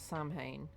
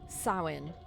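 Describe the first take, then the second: First: The first syllable does not rhyme with cow. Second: The first syllable rhymes with cow. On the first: The speaker calls it wrong. "It's not Samhain" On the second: The speaker calls it right. "The first syllable is sow, that rhymes with cow"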